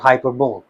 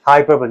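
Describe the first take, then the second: First: The word ends with a 'bowl' sound. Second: The word ends with a 'lee' sound. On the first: The speaker calls it wrong. "Not हाइपरबोल" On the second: The speaker calls it right. "It's हाइपरबली हाइपरबली"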